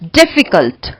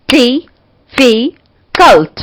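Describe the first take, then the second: First: Said in the usual way. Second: difficult in three slow, punched beats; split into syllables. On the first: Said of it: "और इसके बाद है हमारा". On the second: Shown as a demonstration. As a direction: break difficult as डि, फि, cult with pauses. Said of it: "three syllable.". (Difficult को तीन हिस्सों में, रुक-रुककर)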